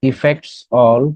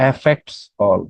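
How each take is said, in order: First: Affects all with the weight landing on all; stress on all. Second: Affects all with the weight on affects, falling at the end; stress on affects. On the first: Asking the class to pick a version, stress on all. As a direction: lean on all, let affects slide. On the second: Offering the class the second version, stress on affects. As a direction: hit affects, drop all away. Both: Shown as a demonstration. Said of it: "কোনটা হবে?".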